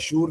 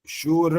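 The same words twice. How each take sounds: First: The final r is clipped short. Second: The final r is fully pronounced. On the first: The speaker calls it wrong. "शूर नहीं।" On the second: The speaker calls it right. "र पूरा बोलना होता है"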